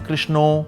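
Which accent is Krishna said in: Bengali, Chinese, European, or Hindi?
Bengali. It is said in a Bengali accent. "से बंगाली से कृष्णो"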